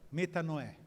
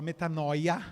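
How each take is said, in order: First: The word ends with an 'eh' sound. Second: The word ends with an 'oya' sound. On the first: This is the original pronunciation. The speaker calls it right. "mas a pronúncia é metanoé" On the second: This is how it is written. The speaker calls it wrong. "A gente fala metanoia, que está escrito"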